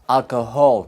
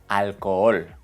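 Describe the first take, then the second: First: An h sound is heard in the middle. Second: No h sound is heard in the middle. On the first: The speaker calls it wrong. "learners sometimes want to sneak in an H sound" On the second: The speaker calls it right. "La letra H es muda"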